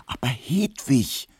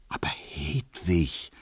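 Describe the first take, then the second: First: Higher, slow, urgent appeal; insistent pleading. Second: Soft, slow, hushed pleading; urgent whisper. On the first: Barber presses the maid close beside her, pleading insistently. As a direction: press the plea, voice raised in pitch. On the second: Barber begs the maid in secret, whispering urgently. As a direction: plead under your breath, drawing it out. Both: A narrator's reading. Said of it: "flüsterte Emil Kubinke eindringlich".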